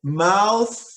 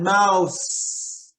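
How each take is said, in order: First: "mouth" with the tongue out for a clear th. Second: "mouse" with a crisp s ending. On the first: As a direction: show the th of "mouth". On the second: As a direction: set "mouse" against mouth with a hiss. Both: Shown as a demonstration. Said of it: "Notice the difference there, big difference".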